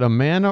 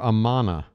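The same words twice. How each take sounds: First: The middle syllable sounds like 'man'. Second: The middle syllable sounds like 'mon'. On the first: "Is it man" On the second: "or mon?"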